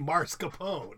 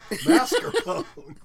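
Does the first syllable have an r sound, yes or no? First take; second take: yes; no. First: The first syllable carries an added r sound. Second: The first syllable has no added r sound. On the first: The speaker calls it wrong. "I say mascarpone" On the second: The speaker calls it right. "it was pronounced mascarpone"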